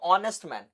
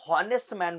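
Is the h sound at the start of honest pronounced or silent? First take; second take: silent; pronounced. First: The word begins with a vowel, no h. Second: The word begins with an audible h sound. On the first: The speaker calls it right. "जो H है वो तो silent है" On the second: The speaker calls it wrong. "मैं इसको हॉनेस्ट man बोलता था"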